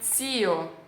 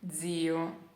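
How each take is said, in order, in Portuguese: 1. O z é forte e seco, como ts. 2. O z é suave e leve, como dz. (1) "Eles pronunciam zio" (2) "eu sempre pronunciei zio, zio, ok? Leggero"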